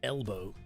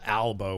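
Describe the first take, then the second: First: The first vowel is an 'eh' sound. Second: The first vowel is an open 'ah' sound. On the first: "chat would correct me and say it's L" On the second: "I say Al Albo with an A"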